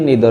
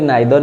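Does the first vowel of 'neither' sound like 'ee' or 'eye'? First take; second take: ee; eye. First: The first vowel sounds like 'ee'. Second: The first vowel sounds like 'eye'. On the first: "किए निदर भी कहती" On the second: "आपको किए नाइदर भी कहती"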